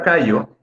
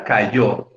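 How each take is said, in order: First: Callo, with the weight landing on CA; stress on first syllable. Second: Cayó, with the weight landing on YÓ; stress on last syllable. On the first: Teacher contrasting callo with cayó, stressed on the first syllable. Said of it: "La sílaba tónica en esta palabra es la primera". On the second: Teacher showing a class the word cayó, stressed on the last syllable. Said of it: "La sílaba tónica es la última". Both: Shown as a demonstration.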